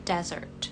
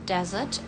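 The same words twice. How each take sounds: First: It is said in an American accent. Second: It is said in a British accent. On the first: "Americannya desert. R-nya agak diajak dikit" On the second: "Untuk British"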